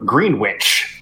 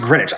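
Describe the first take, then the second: First: The word is said the way it is spelled. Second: The word is said in its reduced form. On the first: "So it's spelled Greenwich" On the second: "it's pronounced Greenwich"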